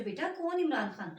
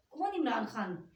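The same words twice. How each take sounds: First: "बेटा, कौन Imran Khan?" called out louder, falling at the end; louder question. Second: Said in the usual way. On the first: Retold or imitated. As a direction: call "बेटा" down louder to the visitor at the door. (ज़ोर से पुकार कर पूछना) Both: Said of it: "मैंने ऐसे करके पूछा".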